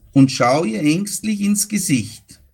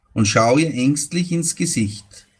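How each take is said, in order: No difference in how they are said.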